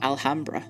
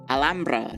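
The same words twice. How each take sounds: First: The name is pronounced the anglicized English way. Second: The name is pronounced the Spanish way. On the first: The speaker calls it wrong. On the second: The speaker calls it right.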